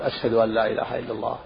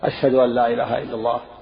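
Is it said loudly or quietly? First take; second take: quietly; loudly. First: It is said quietly, under the breath. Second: It is said loudly, with a raised voice.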